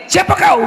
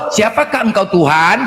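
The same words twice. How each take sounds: First: Higher, blunt demand; a mock shout of who are you; shouted rough version. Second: Slow, formal reverent question; mild mock reverent question; polite reverent version. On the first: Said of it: "Seharusnya gitu". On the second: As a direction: ask it slowly and reverently. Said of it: "Ini kok kau tahu".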